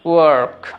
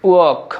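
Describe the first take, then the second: First: The r sound is clearly pronounced. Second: The r sound is silent. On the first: "American" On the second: "British অ্যাকসেন্টে বলবো"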